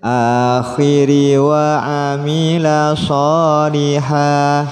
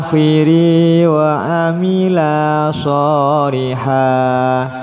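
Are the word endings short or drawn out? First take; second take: short; drawn out. First: The word endings are kept short. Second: The word endings are drawn out long. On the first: The speaker calls it right. "apabila tidak terdapat tanda panjang jangan diseret" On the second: The speaker calls it wrong. "jangan dibaca"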